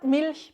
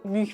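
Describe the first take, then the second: First: Standard vowel with a clear L. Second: Dialect vowel like ü, no L.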